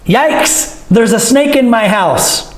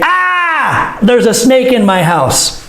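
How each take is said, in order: First: Mild concern. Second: High startled cry, then the news; alarmed shout. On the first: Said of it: "For fear of concern, but not serious". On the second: Teacher acting real panic at a snake in the house, shouting. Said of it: "I would probably say". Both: Shown as a demonstration.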